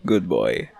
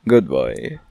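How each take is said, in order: First: Said in the usual way. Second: Put-on deep good boy. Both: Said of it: "praising listeners".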